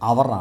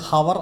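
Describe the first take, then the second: First: It starts with no h sound. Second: It starts with an audible h sound. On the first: The speaker calls it right. "എച്ച് silent ആണ്" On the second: The speaker calls it wrong. "ഇത് ഹവർ അല്ല"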